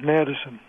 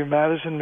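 First: "Madison" with a raised, gliding A, like MEAD-ison with "eh-uh"; shifted vowel. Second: Said in the usual way. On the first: Shown as a demonstration. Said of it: "didn't say Madison". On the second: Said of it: "John's pronunciation illustrated".

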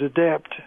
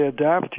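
First: "adapt" with a raised, gliding A, like a-DEAPT; shifted vowel. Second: Said in the usual way. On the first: Shown as a demonstration. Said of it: "He didn't say adapt". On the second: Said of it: "John's pronunciation illustrated".

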